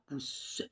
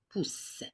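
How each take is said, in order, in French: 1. Le e final se prononce comme une voyelle. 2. Le e final est muet. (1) "On ne dit pas pouce" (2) "elle ne produit aucun son. Elle est muette"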